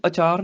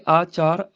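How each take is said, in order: First: ਅਚਾਰ with a short opening a; wrong short vowel. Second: ਆਚਾਰ with a long opening aa; long vowel. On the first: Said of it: "ਇਹਨੂੰ ਅਚਾਰ ਨਹੀਂ ਕਹਿਣਾ". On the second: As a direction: hold the first vowel of ਆਚਾਰ. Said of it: "ਇਹ ਆਚਾਰ ਆਚਰਨ ਵਾਸਤੇ". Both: Shown as a demonstration.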